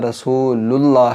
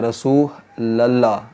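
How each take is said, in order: First: One linked word with an 'u' before 'llah'. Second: Two separate words with 'Allah' starting with 'a'. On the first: The speaker calls it right. "रसूलुल्लाह है" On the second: The speaker calls it wrong. "कुछ लोग यहाँ गलती करते हैं"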